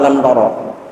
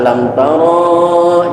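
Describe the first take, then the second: First: The vowel after the r is short. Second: The vowel after the r is drawn out long. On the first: The speaker calls it right. "tapi ro-nya tidak dibaca panjang" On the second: The speaker calls it wrong. "Jangan dibaca"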